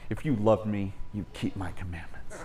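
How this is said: It is said in a passive-aggressive tone. It is a guilt-tripping demand disguised as a condition. The speaker calls it wrong.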